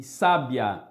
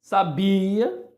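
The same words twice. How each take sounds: First: "sábia" with sá punched, the ending dropping low; stress on first syllable. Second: "Sabia" with a long, strong bi; stress on middle syllable. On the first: Teacher contrasting word stress for students, "sábia" stressed on sá. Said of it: "proparoxítona". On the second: Teacher contrasting word stress for students, "Sabia" stressed on bi. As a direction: lean on the i of "Sabia". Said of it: "paroxítona". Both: Shown as a demonstration.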